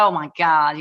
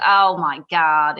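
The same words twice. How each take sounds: First: Said in the usual way. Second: Slow, drawn-out American "Oh my God"; American accent. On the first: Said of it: "And he said". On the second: Retold or imitated. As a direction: mimic the husband's American accent, stretched out. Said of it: "in his American accent".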